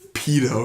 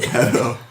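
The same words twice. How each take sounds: First: The word is said with a British pronunciation. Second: The word is said with a non-British pronunciation. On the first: The speaker calls it right. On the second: The speaker calls it wrong.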